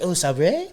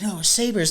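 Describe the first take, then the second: First: Put-on higher, questioning Sabre in a French accent. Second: Said in the usual way. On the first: Fake player misreading Buffalo's team, mock French accent. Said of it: "I was like". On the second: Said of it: "They're like".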